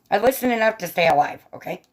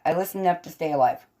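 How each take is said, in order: First: Higher, mildly insistent retort; playful self-defense. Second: Said in the usual way. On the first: Real, not acted. Streamer answering teasing about ignoring doctors, playfully defensive. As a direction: defend yourself with mock insistence. First, insistent take, later repeated.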